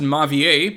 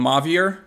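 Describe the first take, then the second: First: The final R of the name is silent. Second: The final R of the name is sounded. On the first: The speaker calls it right. "you're not pronouncing the last" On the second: The speaker calls it wrong. "I know people in this game call him Mavier"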